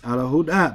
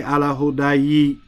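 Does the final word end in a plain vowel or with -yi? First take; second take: plain vowel; with -yi. First: The word ends on a plain long vowel. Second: The word ends with an added -yi sound. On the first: The speaker calls it right. "It's ala huda because it's an alif" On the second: The speaker calls it wrong. "We don't say"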